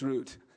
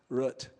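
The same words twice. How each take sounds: First: It uses the pronunciation from outside Montana. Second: It uses the Montana regional pronunciation. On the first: "it's root outside of Montana" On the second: "in Montana it's root"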